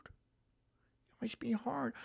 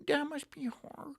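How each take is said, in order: First: Slow, breathy whispered fake pity; slow sarcastic whisper; mock whisper. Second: Higher sarcastic pity; sarcastic high cooing; mock pity. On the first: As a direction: whisper it in pretend sorrow. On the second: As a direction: say it with fake concern. Sarcastic fake sympathy.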